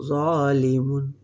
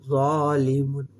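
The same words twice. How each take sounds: Both takes have the same delivery.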